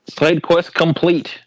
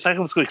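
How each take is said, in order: First: It is said at a normal pace. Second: It is said really fast.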